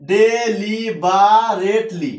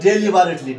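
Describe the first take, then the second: First: "deliberately" very slowly, each syllable separated. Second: Said in the usual way. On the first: Shown as a demonstration. Teacher showing students how to pronounce "deliberately", slowly broken into syllables. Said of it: "উচ্চারণটা শেখার জন্য আমরা syllable আকারে ভেঙে ভেঙে".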